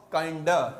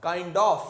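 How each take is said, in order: First: Kind of reduced to 'kinda'; informal contraction. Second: Said in the usual way. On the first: Shown as a demonstration. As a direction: drop the f, end kind of on 'uh'. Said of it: "informal contraction भी है". (kind of को 'काइंडा' बोलें) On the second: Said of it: "ये लोग ऑफ हटा देते हैं".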